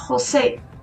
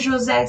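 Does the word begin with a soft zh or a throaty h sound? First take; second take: throaty h; soft zh. First: It starts with a throaty, R-like h sound. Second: It starts with a soft zh sound. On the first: The speaker calls it right. "seria José" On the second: The speaker calls it wrong. "não seria José"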